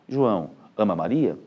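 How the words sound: There is a pause after the first word. Someone is speaking directly to the named person. "se eu puser uma vírgula após a palavra João"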